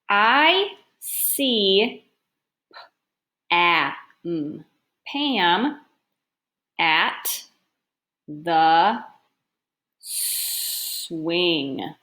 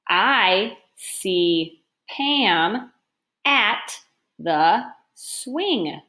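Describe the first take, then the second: First: It is read slowly, sounding out Pam. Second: It is read quickly without stopping.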